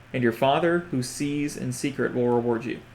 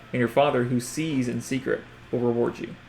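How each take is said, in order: Both takes have the same delivery.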